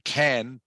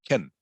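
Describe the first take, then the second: First: The word has a full, clear vowel. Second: The word has a short, weak vowel. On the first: "can is the strong pronunciation" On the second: "Can becomes kin"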